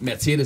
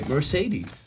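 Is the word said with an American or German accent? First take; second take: German; American. First: It is pronounced with a native German accent. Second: It is pronounced with an American English accent. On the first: The speaker calls it right. "instead of saying like Mercedes" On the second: The speaker calls it wrong. "I now say Mercedes"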